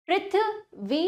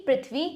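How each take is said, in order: First: Prithvi higher, split as पृथ्... वी; broken into syllables. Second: Said in the usual way. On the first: Shown as a demonstration. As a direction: separate the वी of पृथ्वी. (पृथ्वी में वी से पहले रुककर) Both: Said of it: "तोड़कर पहले".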